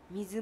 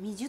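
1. 真ん中の子音は、はっきりした 'z' の音だ。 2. 真ん中の子音は、やわらかい 'j' の音だ。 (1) "水も言えないから" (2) "みじゅってなっちゃうから"

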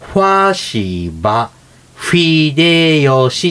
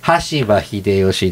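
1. この名前はfに近い音で始まります。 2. この名前は普通のhの音で始まります。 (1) "室町時代語で言うと" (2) "羽柴秀吉ですね"

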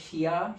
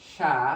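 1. এটা দুই অক্ষরে বলা হয়, প্রথমে shi, তারপর ya। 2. এটা এক অক্ষরে বলা হয়, sha। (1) "ছন্দ অনুসারে এই 3টি অক্ষরের উচ্চারণ হওয়ার কথা ছিল শিয়া" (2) "এটার প্রোনাউন্সিয়েশন হবে সা"

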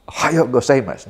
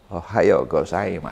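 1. Diucapkan dengan cara yang biasa dan kasual. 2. Diucapkan dengan cara yang lembut dan sopan. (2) "ada pronunciation yang sopan"

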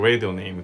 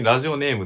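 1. 英語っぽいアクセントで言われてる。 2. 普通の日本語のアクセントで言われてる。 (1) "ラジオネームのことをラジオネームって言ってた" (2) "普通にラジオネームって言ってた"

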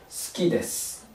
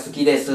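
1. 母音はささやくようで、ほとんど聞こえません。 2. 母音は最初から最後まで、しっかり声が出ています。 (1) "最後の部分が発音してないですよ。" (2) "母音を入れて発音するとするでしょ。"

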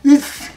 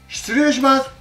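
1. 短く一音に縮めて言います。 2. 全部言います。一音ずつ、すべて言います。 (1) "短縮しすぎてS" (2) "元は言語は失礼します"

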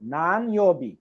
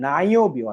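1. প্রতিটি অক্ষর পূর্ণভাবে ও স্পষ্টভাবে উচ্চারিত হয়। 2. অক্ষরগুলো একসঙ্গে মিশে একটি সংক্ষিপ্ত রূপ হয়। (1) "আপনি যখন স্পষ্টভাবে বলবেন তখন কি হবে নান ইয়বি" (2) "কথ্য ভাষা অর্থাৎ যদি আপনি কথা বলার সময় দেখবেন লিসেনিং এ বলতেছে নাইওবি"

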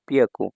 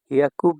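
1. শব্দটি শুরু হয় p ধ্বনি দিয়ে। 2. শব্দটি শুরু হয় h ধ্বনি দিয়ে। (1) "আবার পিয়াকুও বলা হয়" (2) "হিয়াকুকে বিয়াকু বলা হয়, আবার পিয়াকুও বলা হয়"

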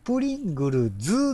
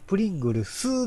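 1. 名前は有声の「z」の音で終わります。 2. 名前は無声の「s」の音で終わります。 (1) "正式名称は、プリングルズなんですって。ズ。" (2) "惜しい人だったらね、プリングルスなんですよ。"

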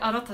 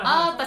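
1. すべての音節がはっきり、しっかり発音されます。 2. 真ん中の音は長母音になって落ちます。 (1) "あなたですよって" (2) "あーたじゃなくて"

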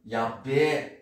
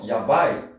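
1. A palavra termina com um som de 'e' esticado. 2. A palavra termina com um som de 'ai' curto.

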